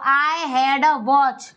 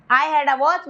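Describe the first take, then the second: First: Very slow, word by word; slow first take to copy; slow model sentence. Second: Said in the usual way. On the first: Shown as a demonstration. (बहुत धीरे, शब्द-दर-शब्द) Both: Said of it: "teacher models then repeats".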